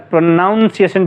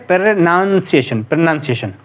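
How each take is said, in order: First: "प्रोनाउंसिएशन" with "naun" like noun; common mispronunciation. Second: "प्रोनंसिएशन" with short "nun", no OW glide; correct pronunciation. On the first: Teacher quoting the frequent error, "naun" in प्रोनाउंसिएशन. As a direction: give प्रोनाउंसिएशन an OW in its second syllable. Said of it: "इसको अक्सर प्रोनाउंसिएशन बोलते हैं". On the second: Teacher showing students how it is read, प्रोनंसिएशन with "nun". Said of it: "इसको पढ़ा जाता है". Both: Shown as a demonstration.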